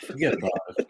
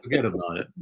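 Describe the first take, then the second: First: Lightly put-on New York accent. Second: Said in the usual way. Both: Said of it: "slide into my New York accent".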